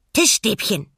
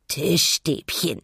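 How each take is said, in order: First: Bright, loud little penguin cry; excited penguin. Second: Cooing penguin. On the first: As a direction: chirp it out proudly. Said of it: "Pinguin wiederholte". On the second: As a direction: coo it out with a full belly. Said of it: "gurrte er". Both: A narrator's reading.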